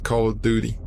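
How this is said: It is said with an American pronunciation. "most of the Americans call it"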